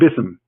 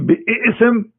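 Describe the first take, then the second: First: It is said shortly, without the extra sound. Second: It has an extra sound before the vowel. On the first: This is the form with a letter taken off. "Bism is easy" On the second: This is the form with the letter kept. "it is hard to recite"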